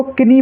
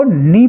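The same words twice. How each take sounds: First: किनी with a k and short i before the n; mistaken K sounded. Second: नी starting straight on n, no k; silent K. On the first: Teacher imitating children's mistake, किनी with a sounded k. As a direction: put a ki- in front, saying किनी. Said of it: "कुछ बच्चे इसको किनी पढ़ते हैं". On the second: Teacher showing students how to read knee, नी without any k. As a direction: say नी, leaving the k silent. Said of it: "के को हम उच्चारित नहीं करेंगे". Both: Shown as a demonstration.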